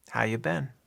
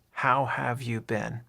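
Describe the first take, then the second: First: "How you been?" with have left out, casual; short form. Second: Said in the usual way. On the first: Shown as a demonstration. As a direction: have dropped, relaxed. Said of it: "We just say". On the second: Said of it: "the short way to say".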